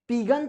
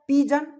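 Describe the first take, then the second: First: The middle consonant is a hard g sound. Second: The middle consonant is a j sound. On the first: The speaker calls it wrong. "पीगन तो नहीं कहेंगे" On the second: The speaker calls it right. "ज के sense में उसका उच्चारण करेंगे"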